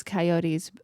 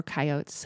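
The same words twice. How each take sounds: First: Coyotes said kai-OH-teez; three-syllable coyotes. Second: Coyotes said KAI-ohts; two-syllable coyotes. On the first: Listing predators such as wolves, coyotes said as kai-oh-teez. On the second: Offering the other pronunciation to listeners, coyotes said as kai-ohts. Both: Shown as a demonstration. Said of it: "however you pronounce it".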